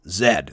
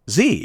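First: The letter is said the British/Canadian way. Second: The letter is said the American way.

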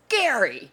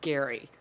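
First: The name is shouted loudly. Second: The name is said flatly and quietly.

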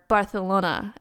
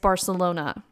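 First: It is pronounced with a Spanish accent. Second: It is pronounced with an English accent.

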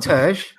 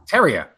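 First: The name is said as one short syllable. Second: The name is said with several syllables. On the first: The speaker calls it wrong. "So it's not Terj" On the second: The speaker calls it right. "It's Terrier"

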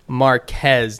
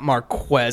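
First: The name is said the Spanish way. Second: The qu is said as in English. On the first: The speaker calls it right. "it is Marquez" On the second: The speaker calls it wrong. "not Marquez. I think it's just we're used to like the QU makes that sound in English"

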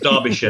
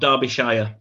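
First: The last syllable is a reduced 'sher'. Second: The last syllable is a full 'shire'. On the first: The speaker calls it right. "There's no Shire" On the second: The speaker calls it wrong. "it's not Derbyshire"

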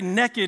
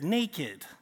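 First: It is said in a Southern US accent. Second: It is said in a standard northern accent.

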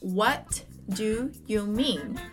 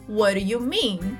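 First: It is said slowly, word by word. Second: It is said fast, words run together.

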